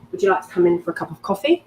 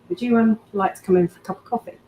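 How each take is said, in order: First: It sounds like a plain, literal invitation. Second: It sounds suggestive, with a loaded hesitation.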